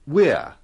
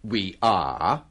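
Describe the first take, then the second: First: One short syllable, with the vowel dropped. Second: Two separate words, with the full vowel. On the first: The speaker calls it right. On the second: The speaker calls it wrong. "kita biasanya tidak mengatakan"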